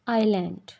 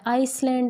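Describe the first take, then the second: First: No sound comes between the vowel and l. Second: An s sound comes before the l. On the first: The speaker calls it right. "It's आइलैंड" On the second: The speaker calls it wrong. "आइसलैंड नहीं होता"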